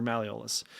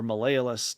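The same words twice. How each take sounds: First: "malleolus" with the usual stress on LEE, ma-LEE-uh-lus; first pronunciation of malleolus. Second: "malleolus" said as ma-LAY-oh-lus; alternative pronunciation of malleolus. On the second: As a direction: give "malleolus" its other pronunciation, with LAY in the middle. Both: Shown as a demonstration. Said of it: "depending on how you pronounce it".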